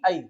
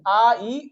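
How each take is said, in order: First: The two vowels are run quickly together. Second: The two vowels are said slowly and separately.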